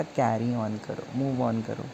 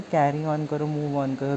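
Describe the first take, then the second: First: Softer, lower auntie; "carry on करो, move on करो" said soft and low, consoling. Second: Said in the usual way. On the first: Retold or imitated. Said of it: "aunty ने सहारा दिया". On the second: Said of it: "फिर तूने फिर बोला".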